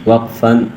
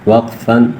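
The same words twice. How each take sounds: The two takes are said the same way.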